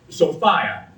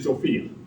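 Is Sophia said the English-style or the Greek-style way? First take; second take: English-style; Greek-style. First: It uses the traditional English pronunciation. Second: It uses the restored ancient Greek pronunciation. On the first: "the old English pronunciation" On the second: "the new pronunciation was tried to imitate the old Greek"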